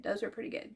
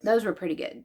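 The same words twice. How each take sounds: First: Whispered aside, a secret. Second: Said in the usual way. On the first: Shown as a demonstration. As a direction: breathe it out under her voice. Repeats line as a whispered aside.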